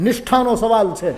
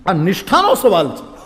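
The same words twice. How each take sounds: First: Angry disciple. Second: Laughing retelling. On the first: Acted. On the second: Retold or imitated. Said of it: "હા".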